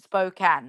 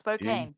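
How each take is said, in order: First: The second syllable sounds like the word can. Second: The second syllable does not sound like can. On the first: The speaker calls it right. "S P O dash C A N" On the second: The speaker calls it wrong. "not Spokane"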